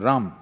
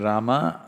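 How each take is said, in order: First: The final vowel is cut off, northern Indian style. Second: The final vowel is kept.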